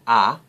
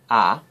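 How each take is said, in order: No difference in how they are said.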